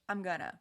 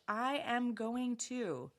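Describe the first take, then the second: First: The words are contracted and run together. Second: Every word is said fully and separately. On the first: "Real spoken English" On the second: "Textbook English"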